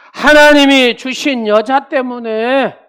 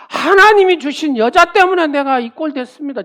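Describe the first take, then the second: First: Slow, higher, loud aggrieved whine; complaining Adam. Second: Higher, louder aggrieved complaint; complaining Adam. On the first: Adam whining to God about the woman, slow and loud. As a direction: drag out the complaint. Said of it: "이런 얘기입니다". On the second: Adam protesting to God, loud and aggrieved. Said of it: "아담이 말하는". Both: Retold or imitated.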